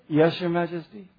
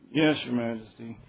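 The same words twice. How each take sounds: First: It is said clearly and firmly. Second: It is mumbled quietly and unclearly. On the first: The speaker agrees wholeheartedly. The speaker calls it right. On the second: The speaker agrees reluctantly. The speaker calls it wrong.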